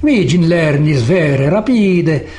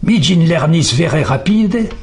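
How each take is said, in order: First: It is spoken with an Italian accent. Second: It is spoken with a French accent. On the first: "un Italien" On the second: "un Français dira"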